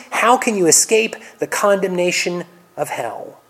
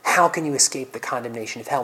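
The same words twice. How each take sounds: First: Berating. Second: Loving grief. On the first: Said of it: "berate the Pharisees". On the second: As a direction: ask it in sorrow, not condemnation. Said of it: "with perfect love in his heart". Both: Acted.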